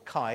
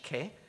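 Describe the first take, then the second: First: The word ends in an 'eye' sound. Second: The word ends in an 'eh' sound. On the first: This is the modern way to say it. "if you're studying modern Greek and you the modern pronunciation" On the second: This is how the word actually is. "but it's actually ke"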